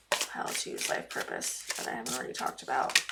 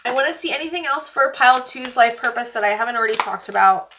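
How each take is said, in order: First: Whispered repeat, muttered under her breath; whispered to herself. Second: Said in the usual way. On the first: Real, not acted. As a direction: whisper it to yourself while thinking.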